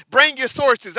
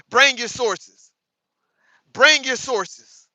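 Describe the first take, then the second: First: Said in the usual way. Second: "Bring your sources" slow and spaced out, each word weighed; slow demand. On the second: Real, not acted. Repeating demand slowly.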